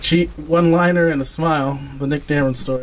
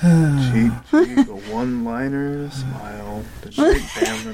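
First: It is said in an upbeat, unsad tone. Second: It is said sadly, like Eeyore.

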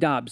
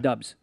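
First: The vowel sounds like the one in 'lot'. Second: The vowel sounds like the one in 'cup'. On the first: The speaker calls it right. "it's pronounced Dobbs" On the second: The speaker calls it wrong. "not Dubs"

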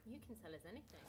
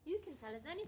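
First: It is said in a normal voice. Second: It is said in a higher voice.

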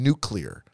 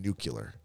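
First: The word is said like nuke-lee-ar. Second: The word is said like nuke-yoo-lar. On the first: The speaker calls it right. "It's always been nuclear" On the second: The speaker calls it wrong. "that's not what you hear. It's fucking nuclear"

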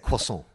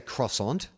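First: It is said with a French pronunciation. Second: It is said with an Australian English pronunciation. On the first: This is how French speakers say it. "they say croissant" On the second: This is how locals say it. "we say croissant"

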